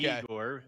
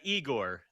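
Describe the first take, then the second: First: The name begins with a 'yeh' sound. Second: The name begins with an 'ee' sound. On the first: The speaker calls it wrong. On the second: The speaker calls it right. "it's more uh, Igor than"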